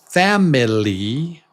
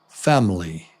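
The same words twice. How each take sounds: First: Every vowel is pronounced fully and slowly. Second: The unstressed vowels are reduced to quick schwas. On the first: The speaker calls it wrong. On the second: The speaker calls it right.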